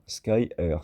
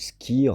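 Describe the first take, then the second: First: It sounds like English sky plus letter R. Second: It is said as one short single syllable. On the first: "ça donne Sky, le ciel en anglais, plus un R" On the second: "Ou Skir"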